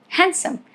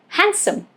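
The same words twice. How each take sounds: Both takes have the same delivery.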